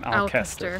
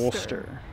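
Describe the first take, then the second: First: The name is said as spelled, Al-ces-ter. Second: The name is said shortly, as Ul-ster. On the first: The speaker calls it wrong. "it looks like Alcester. I said what we were saying that for the longest time" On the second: The speaker calls it right. "really you pronounce it Ulster"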